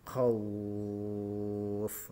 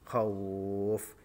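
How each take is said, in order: First: The vowel before the final sound is held very long. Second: The vowel before the final sound is held moderately. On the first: "tiga alif atau enam harokat" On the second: "Ini agak panjang"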